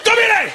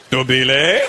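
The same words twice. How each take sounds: First: "Dobile!" yelled very high, falling at the end; exclamatory intonation. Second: "Dobile?" low, then rising at the end; questioning intonation. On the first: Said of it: "But it was an exclamation". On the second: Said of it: "if it was a question mark". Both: Shown as a demonstration.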